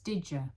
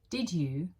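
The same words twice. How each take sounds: First: The two words are blended into one sound. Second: The two words are said separately and clearly. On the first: "native speakers blend them together" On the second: "Learners expect two separate words"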